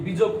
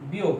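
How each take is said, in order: First: "বিযোগ" said bi-jog, with a hard j; expected spelling sound. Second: "বিয়োগ" said bi-yog, j softened to y; actual pronunciation. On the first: Teacher shows what it should be, "বিযোগ" as bi-jog. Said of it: "হওয়া উচিত কি". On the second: Teacher shows what it became, "বিয়োগ" as bi-yog. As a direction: glide "বিয়োগ" as biyog, without j. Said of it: "কিন্তু হয়ে গেল কি". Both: Shown as a demonstration.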